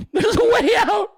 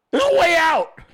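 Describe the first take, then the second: First: Much higher, louder yell breaking into laughs; mock shout cracking into laughter. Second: Higher, louder crying yell; mock desperate shout. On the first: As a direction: scream it again but lose it laughing. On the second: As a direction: yell like someone trapped, begging to get out. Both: Trapped person yelling for escape.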